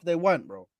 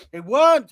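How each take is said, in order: First: Said in the usual way. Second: Emphatic high retort. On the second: Real, not acted. Insisting to his co-hosts, loud and high. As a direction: snap it back louder and higher. Repeats retort louder and higher.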